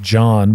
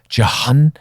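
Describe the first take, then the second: First: The H is silent in the middle. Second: The H is sounded in the middle. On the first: "the proper pronunciation of John" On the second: "spell their name J O H N to be called Jahan"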